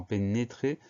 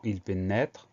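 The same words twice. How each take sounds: First: "pénétrer" with a closed é in the second syllable. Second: "pénètre" with an open è in the second syllable. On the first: Teacher giving an example of the acute accent, closed é. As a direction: sound the middle of "pénétrer" as é, never è. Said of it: "on a un accent aigu". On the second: Teacher giving an example of the grave accent, open è. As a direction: sound "pénètre" with è, ending on the consonants. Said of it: "c'est un accent grave sur le E". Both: Shown as a demonstration.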